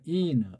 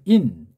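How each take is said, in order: First: The word is drawn out into two syllables. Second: The word is one syllable ending in a closing consonant. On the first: "이게 자모 읽기예요" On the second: "받침으로 인"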